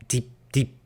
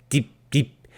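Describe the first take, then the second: The two takes are said the same way.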